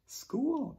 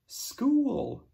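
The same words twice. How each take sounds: First: High echo. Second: School said slowly and clearly, falling; drawn-out teacher model of school; modelled word. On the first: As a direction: sing School up high for the kids. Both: Shown as a demonstration. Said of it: "Can you say school?".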